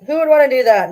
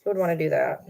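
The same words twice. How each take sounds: First: Louder, higher mock outrage; loud indignant rhetorical question; emphatic. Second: Said in the usual way. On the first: Real, not acted. Louder repeat.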